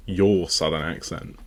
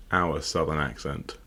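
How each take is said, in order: First: "your" picked out and stressed. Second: "our" picked out, lower and softer; lower, softer line with emphasis on "our"; stress on our. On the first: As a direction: lean on "your" to set it against ours. Contrasts your accent with ours. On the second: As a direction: lean on "our" to set it against yours. Contrasts our accent with yours. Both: Real, not acted.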